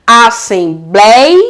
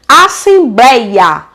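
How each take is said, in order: First: "Assembleia" split as a-ssem-blei... a; "Assembleia" slowly in beats, blei rising and drawn out; syllable by syllable. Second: Said in the usual way. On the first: Shown as a demonstration. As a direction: hold blei in "Assembleia", pause, then a separate a. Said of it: "Forma um hiatozinho". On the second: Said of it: "olha o outro exemplo".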